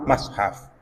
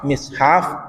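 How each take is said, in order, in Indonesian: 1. Vokal pertama adalah a. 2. Vokal pertama adalah i. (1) "fathuha ban fathana mim" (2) "kasruha ban kasrana mim"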